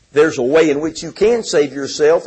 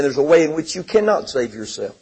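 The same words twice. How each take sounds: First: Low, measured, with "can" picked out; stress on CAN. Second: Low and softer, with "cannot" picked out; stress on CANNOT. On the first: Preacher setting out a distinction for listeners, stress on "can". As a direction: lean on "can" as one side of a contrast. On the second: Preacher completing a distinction for listeners, stress on "cannot". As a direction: lean on "cannot" as the opposing side. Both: Real, not acted.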